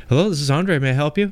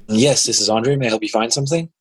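First: Light phone-greeting clerk voice; customer service voice. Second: Perky store clerk, rising pitch; customer service voice. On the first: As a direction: answer the phone like a polite clerk. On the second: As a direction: chirp it like a helpful shop clerk. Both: Retold or imitated. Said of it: "your customer service voice when you answer the phone".

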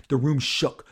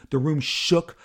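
Both takes have the same delivery.

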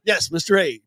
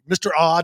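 First: "A" said as the letter ay; Mister A with a plain letter-name A. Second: "Ah" as an open ah, like saying ah at the doctor; Mister Ah stretched to an open ah. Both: Shown as a demonstration.

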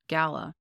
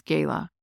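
First: "Gala" said as GAL-uh; first vowel of "Gala" as in cat; GAL-a pronunciation. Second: First vowel of "gala" as in day. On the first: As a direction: say "Gala" with a short A. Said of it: "I heard it". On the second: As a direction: say "gala" with a long AY. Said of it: "How do you pronounce gala?". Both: Shown as a demonstration.

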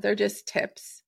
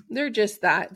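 First: Slow breathy aside; whisper. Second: Said in the usual way. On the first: Real, not acted. Host reassuring listeners the tips are only tips, whispered. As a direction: whisper it like a little secret.

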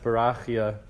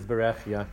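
First: "Berachia" with an open "ah" in the middle; common pronunciation. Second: "Berechia" with a short "eh" in the middle; correct vowelling. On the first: Teacher showing the class the common form, "Berachia" with an "ah". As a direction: say "Berachia" with RAH, not REH. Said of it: "It's often pronounced Berachia". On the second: Teacher giving the class the correct vowels, "Berechia" with an "eh". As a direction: say "Berechia" with REH, not RAH. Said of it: "I guess the cor-, correct, uh, Nukudos". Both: Shown as a demonstration.

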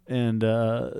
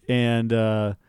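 The two takes are said the same way.

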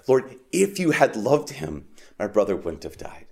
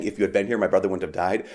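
First: Deeper cry. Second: Said in the usual way. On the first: Shown as a demonstration. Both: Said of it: "this deeper cry".

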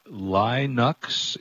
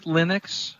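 First: Linux said slowly as LIE-nucks; Linux rhyming its first syllable with "lie"; long-i Linux. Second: Linux said as LIN-icks, questioning; Linux with a short i, like "lint". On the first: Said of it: "Is that the actual". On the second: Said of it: "is it Linux?". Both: Shown as a demonstration.

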